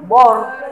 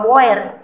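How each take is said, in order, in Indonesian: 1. Vokalnya adalah bunyi o biasa. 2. Vokalnya dibaca sebagai o dan e terpisah. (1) "bukan juga bor" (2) "Jadi bukan boer"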